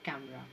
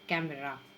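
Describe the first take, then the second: First: The middle vowel is left silent. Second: The middle vowel is pronounced. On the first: The speaker calls it right. "ई is silent over here" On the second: The speaker calls it wrong. "कैमरा नहीं"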